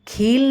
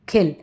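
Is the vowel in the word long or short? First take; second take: long; short. First: The vowel is said long. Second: The vowel is said short. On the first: The speaker calls it wrong. "खील नहीं कहेंगे" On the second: The speaker calls it right. "छोटी मात्रा का sound छोटा रहता है"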